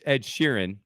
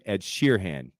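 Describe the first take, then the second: First: The surname has its usual pronunciation. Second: The surname is pronounced as it is spelled. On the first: "It's [name]" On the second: "I call him [name] because we are gonna pronounce things as they're spelled"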